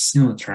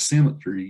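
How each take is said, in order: First: The last syllable rhymes with 'eye'. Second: The last syllable ends with an 'ee' sound. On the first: "say it as symmetry, to rhyme with I" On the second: "instead of saying it's symmetry"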